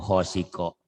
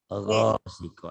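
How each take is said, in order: First: The word begins with a rough 'kh' sound. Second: The word begins with a voiced 'gh' sound. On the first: The speaker calls it wrong. "Tapi ibu itu dominan ke ho tadi ibu" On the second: The speaker calls it right. "harusnya ro"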